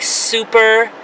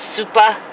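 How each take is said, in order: First: The final r sound is pronounced. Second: The final r sound is dropped.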